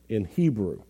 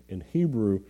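The two takes are said the same way.

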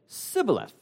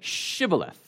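First: The word begins with a plain s sound. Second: The word begins with an sh sound. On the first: The speaker is an Ephraimite from west of the Jordan. "like Ephraim was, you said sibboleth" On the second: The speaker is from east of the Jordan. "you said it with the sh"

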